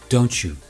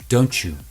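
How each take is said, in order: First: The t and y merge into ch. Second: The same.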